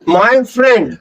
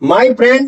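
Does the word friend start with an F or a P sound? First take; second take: F; P. First: Friend begins with an F sound. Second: Friend begins with a P sound. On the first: The speaker calls it right. "फै का sound आएगा" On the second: The speaker calls it wrong. "नहीं, क्योंकि P का sound नहीं आता फ्रेंड में"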